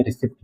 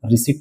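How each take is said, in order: First: रिसिप्ट with a p sound; short i and p before t in रिसिप्ट; wrong pronunciation. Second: रिसीट without a p sound; long ee in रिसीट, p left silent; correct pronunciation. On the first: Teacher rules out this reading, mispronounced रिसिप्ट with a p. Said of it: "रिसिप्ट नहीं". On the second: Teacher repeats the reading for students, रिसीट with silent p. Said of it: "इसे हम सिर्फ रिसीट पढ़ेंगे". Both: Shown as a demonstration.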